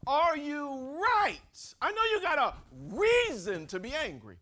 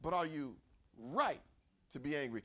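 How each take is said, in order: First: Loud, high, drawn-out confronting question; forceful challenge. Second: Said in the usual way. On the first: Acted. God questioning Jonah's anger, forceful challenge. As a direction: hammer the question home like a preacher.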